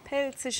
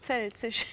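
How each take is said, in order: First: The word begins with a plain p sound. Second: The word begins with a pf sound. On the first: This is how locals say it. The speaker calls it right. "Ohne F" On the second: This is the standard form. The speaker calls it wrong. "nicht Pfälzisch"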